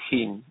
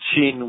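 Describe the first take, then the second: First: It begins with an h sound. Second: It begins with a soft sh sound. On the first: This is how the speaker's own region says it. "we pronounce it heen" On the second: This is how it is said in Kandahar. "They pronounce it sheen"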